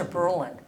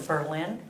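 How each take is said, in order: First: Berlin stressed on the first syllable, BER-lin; shifted stress. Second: Berlin stressed on the last syllable, ber-LIN; original stress. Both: Shown as a demonstration. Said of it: "put the emphasis on a different syllable".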